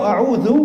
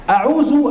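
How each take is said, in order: First: A'udzu with a th-like dh, as in "this"; correct zal. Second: A'udzu mispronounced with a buzzing z; zai in place of zal. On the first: Preacher giving the right word for seeking refuge, a'udzu with dh. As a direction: say a'udzu with the tongue tip between the teeth. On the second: Preacher showing the mistake that changes the meaning, a'udzu with a z. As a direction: say a'udzu as "a'uzu", higher, with a plain z. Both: Shown as a demonstration. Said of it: "zal beda dengan zai".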